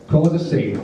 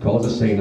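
First: Higher-pitched incredulous repeat; indignant echo. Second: Said in the usual way. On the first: Retold or imitated. Jack echoes his date's accusation, indignant. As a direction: throw the words back at her, outraged.

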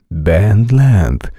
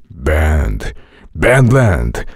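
First: Said in the usual way. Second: Held trailer voice. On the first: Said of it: "No conviene decir ... suavizando y saliendo del personaje". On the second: Shown as a demonstration. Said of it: "Retén esa voz que habías hecho".

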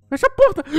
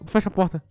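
First: Shrieked much higher and louder. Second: Said in the usual way. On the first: Real, not acted. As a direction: scream it in a panic. Repeats it shrieking.

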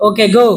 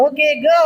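First: Low, short mock dismissal; hiding hurt. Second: Sweet, drawn-out mock dismissal; said smiling. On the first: Teacher dismissing pupil while hurting inside, low and resigned. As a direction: send them off with hidden regret. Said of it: "அவங்க மனசுக்குள்ள அவ்வளவு வருத்தம் இருக்கு". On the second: Teacher dismissing pupil, smiling over hidden hurt. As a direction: let them go with a put-on smile. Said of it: "இதை நம்ம சிரிச்சுக்கிட்டே தான் சொல்லணும்".

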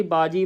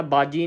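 First: ਬਾਜੀ with a light, undoubled J; soft single consonant. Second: ਬਾਜੀ with a tight, doubled J; wrong pressed consonant. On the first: Teacher showing correct ਬਾਜੀ, soft single J. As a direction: keep the J in ਬਾਜੀ loose and soft. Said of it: "ਪੋਲਾ ਉਚਾਰਨ ਕਰਨਾ". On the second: Teacher showing what to avoid, ਬਾਜੀ with pressed J. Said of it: "ਕੱਸ ਕੇ ਨਹੀਂ ਬੁਲਾਉਣਾ". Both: Shown as a demonstration.

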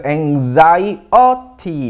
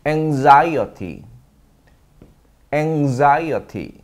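First: Anxiety drawn out slowly, "ang-ZAI-uh-tee"; slow pronunciation. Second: Anxiety syllable by syllable, "ang-ZAI-uh-tee", falling; very slow drill. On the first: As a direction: stretch anxiety slowly with a z sound. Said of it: "Z 발음으로 바뀝니다". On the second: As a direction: spell out anxiety very slowly with z. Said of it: "아주 좋습니다". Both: Shown as a demonstration.

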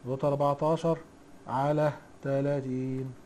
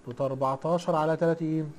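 First: "على تلاتين" stretched out slowly, softer, for note-taking; slow dictation repeat. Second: Said in the usual way. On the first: Shown as a demonstration. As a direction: spell it out slowly so students can write it down. (تكرار ببطء للإملاء) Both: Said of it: "دوت كام يا حاج؟".

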